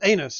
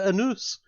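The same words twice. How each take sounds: First: It sounds like the English word anus. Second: It is said with the local French pronunciation. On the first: It makes the name sound amusing. "if you want, I'm happy with that" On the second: It makes the name sound less amusing. "is how these damnable frogs wish to pronounce it"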